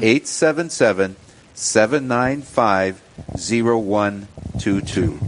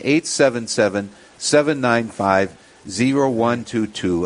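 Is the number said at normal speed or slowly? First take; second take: slowly; normal speed. First: The number is said slowly. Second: The number is said at normal speed.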